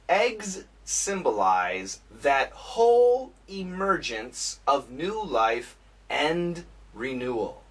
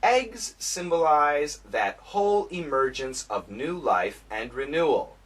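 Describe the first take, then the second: First: It is read at a slow pace. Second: It is read at a moderate pace. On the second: "a little bit faster"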